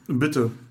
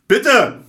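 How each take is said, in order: First: It is said quietly. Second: It is said loudly.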